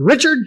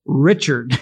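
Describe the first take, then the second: First: Richard snapped out much higher and louder; sharp name call. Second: Said in the usual way. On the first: Retold or imitated. Dad sharply warning his grown son on the scaffolding, mock stern. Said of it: "He said a little sharply". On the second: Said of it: "the word that he always said".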